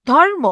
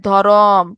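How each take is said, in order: First: ধর্ম with র closed directly onto ম, higher; no vowel between র and ম in ধর্ম; joined consonants. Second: ধরম lower, with a long vowel between র and ম; inserted vowel. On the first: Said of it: "রেফ আকারে ময়ের সাথে যুক্ত অবস্থা". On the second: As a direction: stretch the second syllable of ধরম. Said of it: "নতুন স্বর আসে". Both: Shown as a demonstration.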